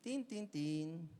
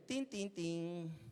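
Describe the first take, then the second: First: Slow "Tin, tin, tin" again like a bell; doorbell imitation. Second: Slow "Tin, tin, tin" like a doorbell; doorbell imitation. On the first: The doorbell keeps ringing, slow chime. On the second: Imitating the doorbell at seven in the morning, slow chime. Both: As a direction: ring it out slowly. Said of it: "el timbre".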